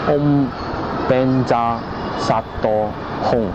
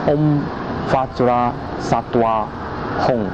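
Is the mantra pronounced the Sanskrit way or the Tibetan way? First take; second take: Tibetan; Sanskrit. First: It is pronounced the Tibetan way, Benja Sato. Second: It is pronounced the Sanskrit way, Vajra Sattva. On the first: "在藏文的发音就是" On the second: "在梵语的发音就是"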